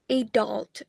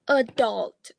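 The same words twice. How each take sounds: First: The stress is on the first syllable. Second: The stress is on the second syllable. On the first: "General American may stress the first syllable" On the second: "General British may stress the second syllables"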